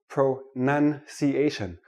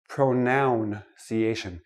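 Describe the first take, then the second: First: The second syllable sounds like 'nun'. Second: The second syllable sounds like 'noun'. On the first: The speaker calls it right. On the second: The speaker calls it wrong.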